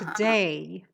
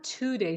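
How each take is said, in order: First: The stress is on the second syllable. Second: The stress is on the first syllable. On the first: The speaker calls it right. "The stress is on the day, on the second syllable" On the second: The speaker calls it wrong. "Not today"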